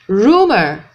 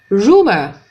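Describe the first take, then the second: The two takes are said the same way.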